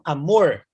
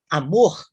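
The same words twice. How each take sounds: First: The R sounds like rural caipira speech. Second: The R sounds like Portuguese from Portugal. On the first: "Eles pronunciam amor" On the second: "que seria a pronúncia num português talvez mais próximo do português de Portugal"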